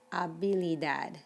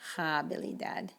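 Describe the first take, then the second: First: The h at the start is silent. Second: The h at the start is pronounced. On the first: The speaker calls it right. "it's habilidad" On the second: The speaker calls it wrong. "not habilidad"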